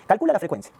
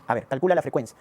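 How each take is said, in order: First: Emphatic command. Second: Said in the usual way. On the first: Shown as a demonstration. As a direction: push the class to work it out.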